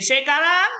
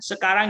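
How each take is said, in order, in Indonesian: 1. Vokal E diucapkan dengan logat Medan. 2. Vokal E diucapkan dengan cara baku. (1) "jadi sekarang. Wah, itu kan salah" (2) "Jangan bilang misalnya sekarang"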